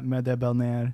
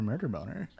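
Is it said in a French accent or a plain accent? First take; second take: French; plain. First: It is said in a put-on French accent. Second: It is said in his normal accent.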